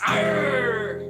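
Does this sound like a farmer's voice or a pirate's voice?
pirate. It is said in a pirate's voice.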